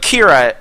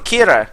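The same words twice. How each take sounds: First: The R is said the plain English way. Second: The R is said the Japanese way. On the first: It is how English speakers say the name. "But Kira is how we say it" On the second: It copies how the anime says the name. "I don't know why I said the R like that. I feel like I have to because in the anime Death Note they say it like that"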